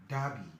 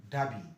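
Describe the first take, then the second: Both takes have the same delivery.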